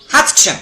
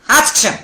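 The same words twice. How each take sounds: The two takes are said the same way.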